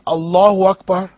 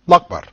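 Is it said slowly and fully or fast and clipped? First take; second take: slowly, fully; fast, clipped. First: It is said slowly with every syllable. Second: It is said fast with syllables dropped.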